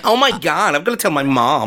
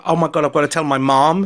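First: Attempted American accent. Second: Put-on amateur American accent; attempted American accent. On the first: Repeating the girl's words for his friend, attempted American accent. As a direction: put on an amateur American accent. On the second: Englishman quoting a scammed girl, attempted American accent. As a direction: try an American girl's accent. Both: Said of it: "your attempt at American accent".

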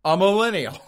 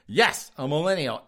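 First: Triumphant punchline. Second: Said in the usual way. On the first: Real, not acted. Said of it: "you think, White Boy Malcolm X?".

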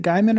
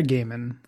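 First: Gaiman said as GUY-mun; GUY-man pronunciation. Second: Gaiman said as GAY-mun; GAY-man pronunciation. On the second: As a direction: say Gaiman to begin like "game". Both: Shown as a demonstration. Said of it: "quick question".

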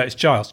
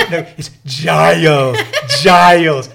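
First: Said in the usual way. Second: Slow, loud "Giles" drawn out syllable by syllable; overenunciated name. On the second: Retold or imitated. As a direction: spell "Giles" out loudly and slowly for someone who can't hear. Repeats name slowly over noise.

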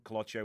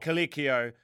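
First: "Colocchio" with an O in the middle; mispronounced name. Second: "Colicchio" with a stressed "LEEK" middle; louder self-correction to "Colicchio", co-LEEK-ee-oh; corrected pronunciation. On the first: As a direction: say "Colocchio", stressed middle rhyming with "lotch". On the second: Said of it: "That's my Australian accent". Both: Real, not acted.

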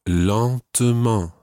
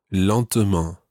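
First: "lentement" said slowly, each syllable clear; slow model pronunciation. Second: Said in the usual way. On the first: Shown as a demonstration. Teacher modelling "lentement" for learners, slow and clear. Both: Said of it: "the word for slowly is".

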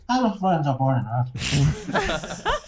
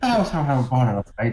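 First: Put-on high-pitched comic Indian accent, drawn out at the end. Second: Lightly put-on Indian accent. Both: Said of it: "I can't do an Indian accent".

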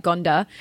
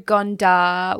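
First: "Gondar" said quickly, less Australian; a tentative local pronunciation of "Gondar"; local-style pronunciation. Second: Gondar in an Australian accent; "Gondar" slowly, with Australian vowels. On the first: Shown as a demonstration. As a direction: attempt "Gondar" as locals might say it. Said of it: "it probably sounds more like Gondar". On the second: Real, not acted. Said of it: "sorry, that's my Australian accent".

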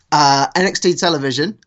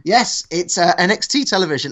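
First: Said in the usual way. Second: Put-on half-hearted Black Country accent. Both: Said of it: "I'm not carrying on with the accent".

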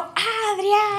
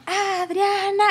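First: High, very drawn-out mock cry; long high call without full volume; own retold yell. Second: High mock crowd call; lifted, cheering call; friends' retold yell. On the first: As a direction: imitate yourself echoing the cheer, stretched out. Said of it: "y yo". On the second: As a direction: imitate friends shouting a name, held back in volume. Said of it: "mis amigos estaban y gritaban".

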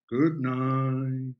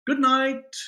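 First: Said in the usual way. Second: Higher, louder sing-song goodbye; bright call out. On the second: Acted. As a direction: call it after the departing students. Teacher calls goodbye to leaving class.

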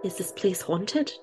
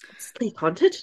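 First: Put-on slow, soft try at an Irish accent; a hesitant stab at sounding Irish, drawn out slowly; attempted Irish accent. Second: Put-on another go at an Irish accent, rising at the end; mock Irish question, rising on "haunted"; attempted Irish accent. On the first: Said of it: "I was trying to be Irish". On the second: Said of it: "quite a hard sentence to say in an Irish accent".

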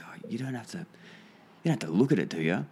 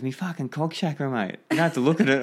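First: Imitating a bashful bloke, tentative start; timid, shy. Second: Imitating an exasperated bloke, high and raised; higher, louder mock protest at the end; insistent retort. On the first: Shy client asking his meditating workmate not to look, timid. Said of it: "really timid, really shy". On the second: Client answering "look at what?", insistent and high-pitched.

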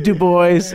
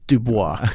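First: Put-on Du Bois as "doo-BOYZ"; Anglicized Du Bois, "du-BOYZ"; his own pronunciation. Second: Dubois as "doo-BWAH"; French pronunciation. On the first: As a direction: rhyme Du Bois with "boys". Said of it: "He pronounced it". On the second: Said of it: "it wasn't Dubois". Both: Shown as a demonstration.

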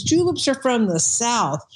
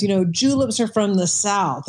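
First: Slow, mild imitation of a thick Southern accent; lightly drawn-out Southern accent, imitating a club member. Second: Said in the usual way. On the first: Bartender mimics a club member's thick Southern accent. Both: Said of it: "he had this really thick accent".

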